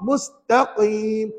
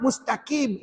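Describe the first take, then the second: First: MUSTAQIM with a thick q from the back of the tongue; correct qaf. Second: MUSTAQIM with a light plain k; wrong kaf. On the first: Teacher contrasts it with kaf, MUSTAQIM with heavy qaf. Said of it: "Ini qaf". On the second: Teacher shows what kaf sounds like, MUSTAQIM with thin k. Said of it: "Kalau kaf". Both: Shown as a demonstration.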